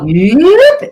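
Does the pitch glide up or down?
up. The pitch glides upward as the folds stretch.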